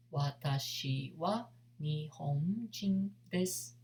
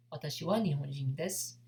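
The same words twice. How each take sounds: First: Slow, syllable by syllable; slow demo. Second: Quick, fluent native pace; natural speed. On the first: Teacher to students learning Japanese, slow clear demo. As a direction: spell it out slowly for beginners. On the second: Teacher to students learning Japanese, fast natural take. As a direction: rattle it off as a native would. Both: Shown as a demonstration.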